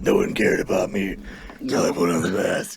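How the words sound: It is said in a gravelly Batman voice.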